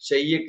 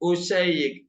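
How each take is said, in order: First: The word starts directly with the 'sh' sound. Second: The word starts with a short 'u' vowel.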